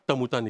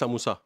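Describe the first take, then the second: First: The s sounds come out as t sounds. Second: The word begins with a clear s sound. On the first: The speaker is missing the front teeth. The speaker calls it wrong. "इंसाइज़र्स नहीं है, तो समोसा नहीं निकलेगा, तमूता निकलेगा" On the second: The speaker has the front teeth needed to say it. The speaker calls it right. "आप बोलना चाहेंगे समोसा"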